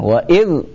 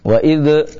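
First: The final consonant stops without a bouncing echo. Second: The final consonant ends with a bouncing echo. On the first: The speaker calls it right. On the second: The speaker calls it wrong.

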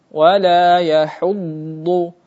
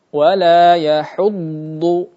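The two takes are said the same way.

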